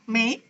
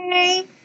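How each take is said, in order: First: The pitch rises through the word. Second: The pitch stays level through the word. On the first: "Kalau nada duanya gimana" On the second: "Mei nada satu"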